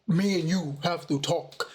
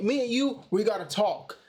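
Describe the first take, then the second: First: It is said in a put-on Darth Vader voice. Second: It is said in an ordinary speaking voice. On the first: "because I had the Darth Vader mask on. It sounded like" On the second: "I didn't say it like that"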